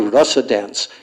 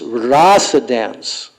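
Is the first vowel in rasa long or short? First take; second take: short; long. First: The first vowel of rasa is short. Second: The first vowel of rasa is long. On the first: The speaker calls it wrong. "You cannot say" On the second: The speaker calls it right.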